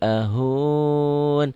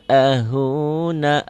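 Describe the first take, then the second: First: The final vowel is dropped, ending on n. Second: The word ends with a sounded final vowel. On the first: The reading stops at this word. "Saya pengen berhentinya di sini" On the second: The reading continues on without stopping. "Apabila ingin disambung, huruf-huruf ujungnya itu dibunyikan"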